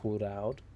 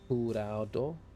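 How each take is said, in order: First: The final O vowel is dropped. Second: The final O vowel is pronounced.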